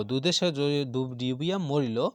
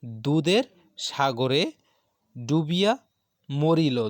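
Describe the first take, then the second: First: Said in the usual way. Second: Each word spaced out and louder; emphatic recitation. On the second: Shown as a demonstration. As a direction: declaim the quoted sentence word by word. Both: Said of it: "একটি বাক্য".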